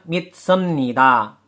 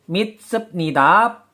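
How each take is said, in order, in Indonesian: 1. Konsonan sebelum 'nida' adalah bunyi m. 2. Konsonan sebelum 'nida' adalah bunyi p.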